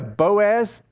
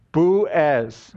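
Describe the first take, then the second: First: "Boaz" said the American way, BOH-az with a long o; American pronunciation. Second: "Boaz" said the Hebrew way, boo-AZ with a short oo; Israeli pronunciation. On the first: Shown as a demonstration. Pastor asks the Israeli man about the American "Boaz", BOH-az. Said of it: "what they pronounce here in America". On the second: Retold or imitated. Israeli man corrects the pastor with his own boo-AZ "Boaz". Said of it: "And he goes".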